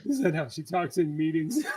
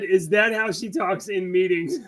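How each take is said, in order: First: Softer laughing repeat. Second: Laughing quote. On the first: Repeats quote, still laughing. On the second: Quoting reporter's question while laughing. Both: Retold or imitated.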